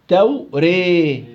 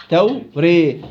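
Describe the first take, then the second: No difference in how they are said.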